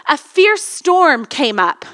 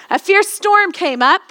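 First: Slow dramatic. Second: Said in the usual way. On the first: Shown as a demonstration.

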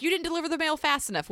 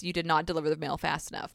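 First: Higher, fast mock complaint; mock complainer. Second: Said in the usual way. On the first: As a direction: toss off the accusation in a put-on high voice. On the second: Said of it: "which, yes".

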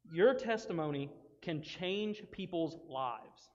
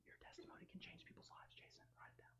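First: "Your testimony can change people's lives" slowly, word by word; emphatic key line. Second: Hushed, unvoiced whisper; whispered repeat. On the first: Teacher giving the key line, "Your testimony can change people's lives" slow and emphatic. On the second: Speaker prompting a listener to write it down, whispered. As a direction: whisper it as a private aside. Aside repeating key line to Jason. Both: Real, not acted.

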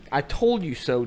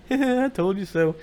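First: Said in the usual way. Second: Giggled, higher, louder tease; playful. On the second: Shown as a demonstration. Husband can be playing with wife, playful laughing taunt. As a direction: laugh and sing it out teasingly. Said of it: "You can be playing like".

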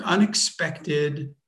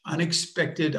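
First: "unexpected" stretched very slowly, each syllable apart; slow, deliberate "unexpected"; drawn-out word. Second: Said in the usual way. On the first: Shown as a demonstration. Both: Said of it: "can you say that again more slowly".

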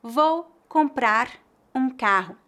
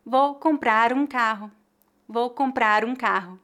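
First: Slow, comprar and um kept apart; careful word-by-word reading; slow separated. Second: Comprar um run together as comprarum; linking the final R to the next vowel; linked words. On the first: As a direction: say each word on its own slowly. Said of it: "Por exemplo". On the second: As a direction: glide the R straight into um. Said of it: "como se fosse uma palavra só". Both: Shown as a demonstration.

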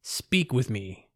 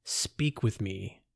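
First: Slow, even command; slow statement. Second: Slow, softer repeated command. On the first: Robed figure ordering the narrator to speak, slow. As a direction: state each word slowly. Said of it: "the figure stated". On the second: Robed figure repeating his order to the narrator, slow and soft. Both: A narrator's reading.

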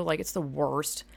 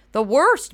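First: Said in the usual way. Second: Much louder and higher on "The worst"; exasperated loud "The worst"; emphatic outburst. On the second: Real, not acted. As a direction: blurt out "The worst" with full force. Repeats phrase for emphasis.

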